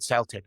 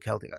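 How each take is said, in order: First: "Celtic" as SELL-tick, the team; football "Celtic" with soft C. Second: "Celtic" as KELL-tick, the people; hard-C Celtic. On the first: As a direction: begin "Celtic" with an S sound. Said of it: "the football team are called". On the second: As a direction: begin "Celtic" with a K sound. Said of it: "the people are called". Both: Shown as a demonstration.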